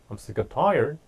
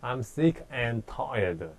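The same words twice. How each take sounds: First: The phrase is said quickly with the words run together. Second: The phrase is said slowly with each word clear. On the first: "실제로 자기네들 스피드대로 한다고 할 때" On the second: "천천히 하면 그렇게 하겠지만"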